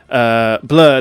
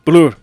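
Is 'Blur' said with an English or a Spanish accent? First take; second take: English; Spanish. First: It is said with an English pronunciation. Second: It is said with a Spanish pronunciation. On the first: "they didn't say Blur" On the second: "Mexico being a Spanish-speaking country, ... They were saying Blur"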